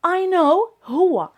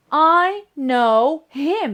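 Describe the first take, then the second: First: Slow, word by word, a deliberate wrong example. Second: Very slow and louder, each word set apart; slow model sentence. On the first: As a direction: lay out each word slowly so the mistake is clear. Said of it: "أنا خصني نستعملو هنا كمفعول به". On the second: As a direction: dictate "I know him" word by word to the class. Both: Shown as a demonstration.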